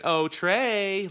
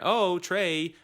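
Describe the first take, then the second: First: It is said with a mocking tune. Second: It is said plainly, without mockery.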